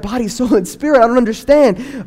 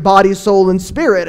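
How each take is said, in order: First: Higher, baffled question rising on spirit; confused teen. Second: Said in the usual way. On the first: Retold or imitated. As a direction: repeat it back, lost and puzzled. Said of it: "and I'd be like". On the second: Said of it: "My father would sit down and be like".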